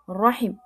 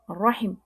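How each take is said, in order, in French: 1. La voyelle est brève, coupée net. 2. La voyelle est brève, coupée net.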